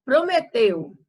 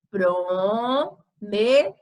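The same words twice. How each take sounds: First: Said in the usual way. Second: PROMETEU as slow "pro, me, teu", the "teu" drawn out; split, last syllable stressed. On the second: Shown as a demonstration. Teacher showing the stronger syllable, syllable by syllable. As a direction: sound out "Prometeu" in separate beats, leaning on "teu". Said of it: "mais força".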